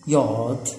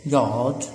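Both takes have the same delivery.

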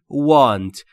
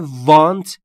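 First: The first sound is made with rounded lips. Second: The first sound is made without rounded lips. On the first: The speaker calls it right. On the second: The speaker calls it wrong. "تلفظ want اشتباهه"

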